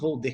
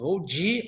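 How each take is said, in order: First: The word 'de' keeps a full 'e' vowel. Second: The vowel in 'de' shifts toward an 'i' sound. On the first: The speaker calls it wrong. "Nós não falamos vou de carro" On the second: The speaker calls it right. "mudando o seu sonzinho aí"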